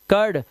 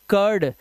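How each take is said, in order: Both takes have the same delivery.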